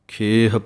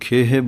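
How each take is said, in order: First: The word ends on the h with no vowel. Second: The word ends with an added e vowel. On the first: The speaker calls it right. "ਇਸੇ ਤਰ੍ਹਾਂ ਖੇਹ ਪਾਠ ਬੋਲਣਾ ਹੈ" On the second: The speaker calls it wrong. "ਕਈ ਖੇਹੇ ਬੋਲ ਜਾਂਦੇ ਹਨ, ਉਹ ਹਾਹੇ ਨੂੰ ਲਾਂ ਲਗਾ ਦਿੰਦੇ ਹਨ"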